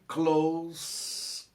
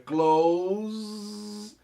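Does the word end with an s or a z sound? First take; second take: s; z. First: The word ends with an s sound. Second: The word ends with a z sound. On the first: It is the word meaning near. "close para o, para o advérbio" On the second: It is the verb meaning to shut. "close para o verbo"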